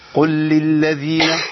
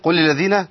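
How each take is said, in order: First: Each of the repeated L sounds is clearly articulated. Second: The repeated L sounds are blurred and not distinct. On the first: The speaker calls it right. "يبقى أنا بينت اللامات" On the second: The speaker calls it wrong. "ما جبتش لامات خالص"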